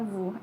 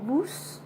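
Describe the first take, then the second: First: The final s sound is silent. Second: The final s sound is pronounced. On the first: The speaker calls it right. "tapi dibaca vu" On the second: The speaker calls it wrong. "bukan dibaca vus"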